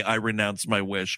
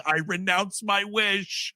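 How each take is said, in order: First: Low, solemn mock quote; lightly voiced low solemn vow. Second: Slow, drawn-out solemn quote; lightly voiced slow vow; mock solemn. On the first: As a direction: intone it deep like a trance. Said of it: "hear Kristen Wiig say". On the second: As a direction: stretch each word like a sermon. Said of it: "adult in this movie saying".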